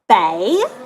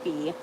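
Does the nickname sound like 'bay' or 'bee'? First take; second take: bay; bee. First: The vowel sounds like 'bay'. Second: The vowel sounds like 'bee'. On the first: The speaker calls it wrong. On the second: The speaker calls it right. "It's pronounced B"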